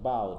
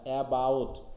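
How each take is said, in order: First: The first syllable is dropped entirely. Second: The first syllable is fully pronounced.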